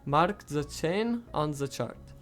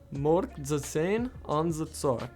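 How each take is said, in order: First: The A and ch sounds are kept unchanged. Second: The A sounds like O and ch like ts. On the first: "a Standard Russian accent, which would sound like this" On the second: "a full sentence would sound like"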